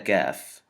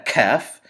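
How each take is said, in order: First: The k is released with little puff of air. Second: The k is released with a strong puff of air. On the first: The speaker calls it right. "This is a Kaf" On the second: The speaker calls it wrong. "This is not a Kaf"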